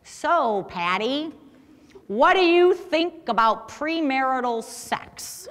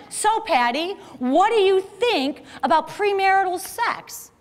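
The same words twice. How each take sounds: First: Slow, stilted question with a laugh breaking in; awkward Jerry. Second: Slow, stilted question said again; a light mimic of an awkward guy pressing his question; awkward Jerry repeating. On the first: Retold or imitated. Storyteller mimics awkward Jerry's blunt bar question, slow and stilted. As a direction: lightly mimic a socially awkward guy asking at the bar. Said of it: "and he talked like this". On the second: Storyteller mimics Jerry asking the same question again, slow and stilted. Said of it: "He says it again".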